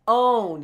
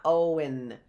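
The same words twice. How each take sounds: First: "own" in one drawn-out syllable; "own" with a long O and no W heard; silent W. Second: "Owen" in two syllables, oh-win; oh-win, falling at the end; wrong pronunciation. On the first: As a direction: stretch "own" as "oan", louder. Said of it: "As if the W were silent". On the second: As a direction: pronounce the W in "Owen". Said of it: "it's not Owen". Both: Shown as a demonstration.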